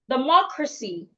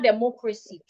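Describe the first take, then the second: First: The stress is on the second syllable. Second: The stress is not on the second syllable. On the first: The speaker calls it right. "I need to stress the third syllable from the end. That is the mo. So the word should be rightly pronounced democracy" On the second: The speaker calls it wrong. "It's not democracy"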